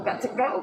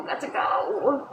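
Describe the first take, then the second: First: Said in the usual way. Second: Slow, whispered got to go; whispered repeat. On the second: Shown as a demonstration. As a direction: let it fade into a whisper.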